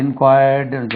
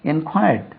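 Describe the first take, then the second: First: In-kwaayardu, dragged, for இன்கொயர்டுன்னு; mispronunciation demo. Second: இன்கொயர்ட் with a short, soft ending; in-KWY-uhd for இன்கொயர்ட்; correct pronunciation. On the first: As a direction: show the faulty long vowel in இன்கொயர்டுன்னு. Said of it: "சொல்லக்கூடாது". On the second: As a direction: stress the second syllable of இன்கொயர்ட். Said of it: "இன்கொயர்டுன்னு சொல்லக்கூடாது". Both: Shown as a demonstration.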